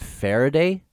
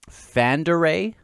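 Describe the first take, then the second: First: The name has an r sound in the middle. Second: The name has an n-d sound in the middle. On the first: The speaker calls it wrong. "I think I usually call it Faraday" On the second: The speaker calls it right. "I think it's Fanderay"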